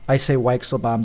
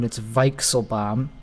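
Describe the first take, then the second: First: The name is said with American pronunciation. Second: The name is said with German pronunciation.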